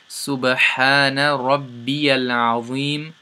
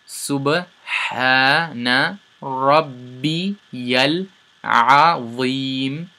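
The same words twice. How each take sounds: First: It is said smoothly at normal speed. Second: It is said slowly, word by word.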